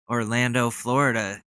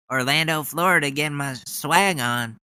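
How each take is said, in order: First: Said in the usual way. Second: Mock Ted Cruz. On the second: Mocking Cruz's speech line.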